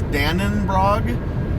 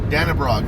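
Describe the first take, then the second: First: An extra n sound comes before the b. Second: No extra n sound comes before the b. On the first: The speaker calls it wrong. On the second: The speaker calls it right.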